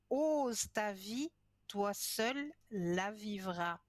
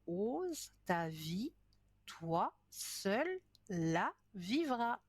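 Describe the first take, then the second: First: It is said at a normal pace. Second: It is said more slowly.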